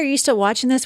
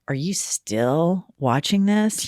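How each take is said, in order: First: It sounds warm, friendly and helpful. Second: It sounds scornful, judgmental and sanctimonious. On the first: The asker is trying to help. "We don't want you to lose your spot. We're just trying to be helpful" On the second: The asker is judging the viewer. "I figure it's like"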